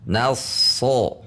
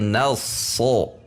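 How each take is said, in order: No difference in how they are said.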